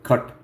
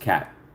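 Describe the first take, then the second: First: The vowel is the short 'u' of cut. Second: The vowel is the open 'a' of cat. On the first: "Cut is how you pronounce it. That's how the Indians pronounce it" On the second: "Just cat"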